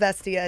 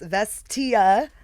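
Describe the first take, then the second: First: The final 'ia' is reduced and not clearly enunciated. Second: The final 'ia' is clearly enunciated, rhyming with 'Mia'. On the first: The speaker calls it wrong. "It is not Vestia" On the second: The speaker calls it right. "like Mamma Mia, ... So enunciate the, the Ia"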